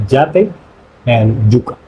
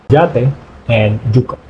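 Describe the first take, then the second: The two takes are said the same way.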